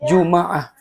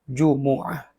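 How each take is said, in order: First: The m is followed by an a vowel. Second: The m is followed by an u vowel. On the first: "dengan membaca fathah huruf mim" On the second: "membaca dhammah huruf mim"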